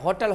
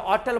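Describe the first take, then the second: First: The word begins with a clear h sound. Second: The word begins without an h sound. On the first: This is how it is said now. "अब होटल होता है" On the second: This is how it was said in the past. "एस silent करके होटल बोलता था"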